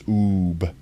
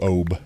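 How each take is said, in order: First: The vowel is a long oo sound. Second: The vowel is an oh sound. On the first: The speaker calls it right. "it's like got the long vowel sound" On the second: The speaker calls it wrong. "as opposed to"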